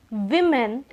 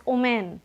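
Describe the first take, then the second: First: Said in the usual way. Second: "omen" for women, no initial v or w sound; Bengali mispronunciation. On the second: Shown as a demonstration. Teacher showing learners a Bengali slip, women mispronounced "omen". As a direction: say "omen", starting straight on the o. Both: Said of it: "many people say women as omen".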